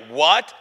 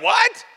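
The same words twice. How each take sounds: First: Loud, questioning what; imagined listeners' baffled what. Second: Very high, loud, rising what; mock shocked yelp. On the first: Retold or imitated. Friends hearing the demon story react, loud disbelief. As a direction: voice their disbelief, loudly. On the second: Storyteller replays his shock at the demon, high incredulous yelp. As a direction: squawk it in comic disbelief.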